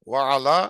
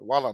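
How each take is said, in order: First: The 'ala' is said clearly as a separate part. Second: The 'ala' is merged into one word, 'wala'. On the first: It means 'and upon'. The speaker calls it right. "এটা আলা কথাটা স্পষ্ট" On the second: It sounds like 'and not'. The speaker calls it wrong. "ওয়ালা না"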